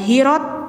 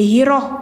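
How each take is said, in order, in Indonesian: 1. Kata ini diakhiri bunyi t. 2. Kata ini diakhiri bunyi h. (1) "jangan hirot" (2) "tapi hiroh"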